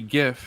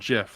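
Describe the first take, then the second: First: The word starts with a hard g sound. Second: The word starts with a soft j sound. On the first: The speaker calls it right. "the people who say GIF" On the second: The speaker calls it wrong. "objectively wrong GIF, like the peanut butter"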